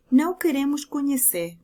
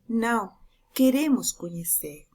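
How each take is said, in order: First: Said in the usual way. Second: "Não" set apart, then "queremos conhecer" stressing "queremos"; comma after não. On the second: Shown as a demonstration. Teacher shows the comma reading: pause after "Não", stress "queremos". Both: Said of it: "Não é o mesmo que dizer".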